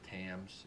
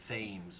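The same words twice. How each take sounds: First: The name is said like the English river. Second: The name is said differently from the river. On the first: This is one speaker's habitual reading of the spelling. "I say Thames because it's spelled like the River Thames in England" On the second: This is the more common pronunciation. "is how it's uh, more commonly pronounced than how he pronounces it"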